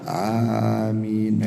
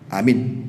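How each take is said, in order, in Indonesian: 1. Kata itu diucapkan panjang, dengan vokal yang dipanjangkan. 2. Kata itu diucapkan pendek, tanpa dipanjangkan. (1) "Amin minimal begitulah" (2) "kurang panjang ya akhi"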